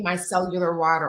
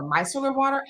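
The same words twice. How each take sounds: First: First of two tries at saying "micellar"; "micellar" as a first guess at the pronunciation. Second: Second, different try at saying "micellar"; "micellar" re-said as the alternative pronunciation. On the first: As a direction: offer one way of pronouncing "micellar", unsure of it. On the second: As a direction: offer another way of pronouncing "micellar", unsure of it. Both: Shown as a demonstration. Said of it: "however you pronounce it".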